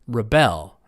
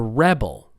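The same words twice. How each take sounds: First: The stress is on the second syllable. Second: The stress is on the first syllable. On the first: It names the action of fighting authority. "How about the action?" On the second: It names a person. "It's on the first syllable"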